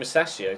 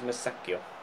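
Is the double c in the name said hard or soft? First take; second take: soft; hard. First: The double c is said soft, like ch. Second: The double c is said hard, like k. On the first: The speaker calls it wrong. "I've always called him Masaccio" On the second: The speaker calls it right. "But it is Musacchio"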